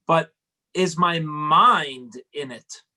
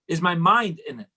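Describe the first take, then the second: First: "But is my mind in it?" slowed right down, leaning on "mind" with a falling tune; slow emphatic question. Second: Said in the usual way. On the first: Shown as a demonstration. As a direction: drag it out and weigh the word "mind".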